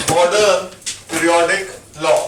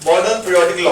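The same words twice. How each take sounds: First: modern and periodic लॉ dictated word by word with pauses between; slow dictation. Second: Said in the usual way. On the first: Shown as a demonstration. Teacher dictating the law so students can write it down, pausing between words. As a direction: spell out modern, pause, then periodic लॉ for note taking. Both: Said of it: "उस point को note कर लो बस".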